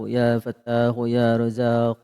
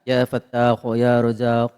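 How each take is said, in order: Both takes have the same delivery.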